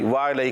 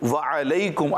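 First: The ain is said with no vowel after it. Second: The ain is followed by a short 'a' vowel. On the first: The speaker calls it wrong. "کچھ لوگ اس کو جزم کر دیتے ہیں" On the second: The speaker calls it right. "عین پر کیا ہے؟ زبر ہے"

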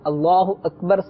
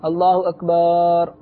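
First: The vowel after the b is short. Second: The vowel after the b is long. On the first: It means God is the greatest. The speaker calls it right. "اللہ اکبر صحیح کہہ کے" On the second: It refers to a drum. The speaker calls it wrong. "اور اکبار کا معنی معاذ اللہ ڈھول"

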